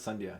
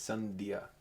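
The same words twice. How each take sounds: First: The name is said with Americanized sounds. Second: The name is said with its native sounds. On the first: The speaker calls it wrong. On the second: The speaker calls it right. "It's Sandhya"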